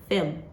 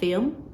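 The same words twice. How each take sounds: First: The vowel is clipped very short. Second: The vowel is drawn out long. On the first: The speaker calls it right. "It's very short" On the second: The speaker calls it wrong. "So it's not film"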